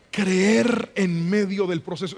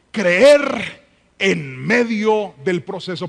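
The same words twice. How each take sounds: First: Said in the usual way. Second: "creer en medio del proceso" said slowly, each word weighted; slow emphatic statement. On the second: Shown as a demonstration. Pastor announcing his second point to the congregation, slow and weighty. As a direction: stretch out "creer" and lean on every word. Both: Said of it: "leer eso fuerte conmigo".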